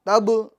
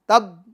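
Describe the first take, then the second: First: The final consonant is released with an echoing bounce. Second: The final consonant is cut off without release. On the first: The speaker calls it right. "देखिए ये आवाज लौट रही है ना" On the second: The speaker calls it wrong. "अगर आप इसको यूं बोलेंगे तब तब आवाज रुक जाएगी मखरज में"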